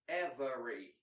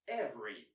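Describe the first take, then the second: First: The middle vowel is pronounced, giving three syllables. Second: The middle vowel is dropped, giving two syllables. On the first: This is the less common, careful form. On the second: This is the more common form.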